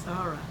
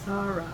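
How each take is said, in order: First: The name is said with a Hebrew pronunciation. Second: The same.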